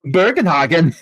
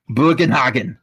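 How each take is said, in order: First: Bugenhagen detto con tono tedesco duro; angry German. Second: Said in the usual way. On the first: Shown as a demonstration. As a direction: Bugenhagen spat out harshly, German-style. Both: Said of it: "See, I say angry".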